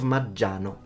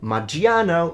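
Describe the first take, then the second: First: The i after the g is silent. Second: The i after the g is pronounced. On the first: The speaker calls it right. "instead of" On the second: The speaker calls it wrong. "imagine me saying"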